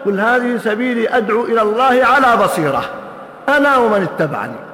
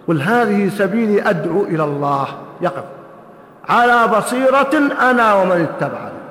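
First: There is no pause right after 'إلى الله'. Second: There is a pause right after 'إلى الله'. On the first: The calling itself is done with insight. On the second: Insight belongs with the following followers.

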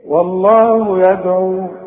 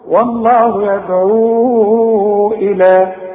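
First: The final long vowel is held briefly. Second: The final long vowel is drawn out longer. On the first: The reciter stops on the word. "مد طبيعي هو بقى" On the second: The reciter joins it to the next word. "هيقابلنا حرف مهموز في همزة"

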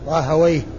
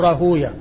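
First: The w takes an a, ending in -wayh. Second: A long u before the w, ending in -yah. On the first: This is the form linguists use. "اللغويين يقولون راهويه" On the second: This is the form hadith scholars use. "المحدثين فهم يقولون راهوية"

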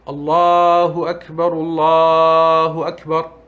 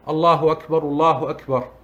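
First: It is said slowly. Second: It is said fast.

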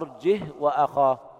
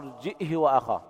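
First: The h carries no vowel at all. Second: A glottal stop, then h with a short i. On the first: "بدون همز وإسكان الهاء" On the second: "بالهمزة مع إسكانها وكسر الهاء بدون صلتها"

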